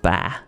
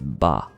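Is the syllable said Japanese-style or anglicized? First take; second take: anglicized; Japanese-style. First: The syllable is said in an anglicized way. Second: The syllable is said the Japanese way. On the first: The speaker calls it wrong. "B A in Japanese is not ba" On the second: The speaker calls it right. "it's ba"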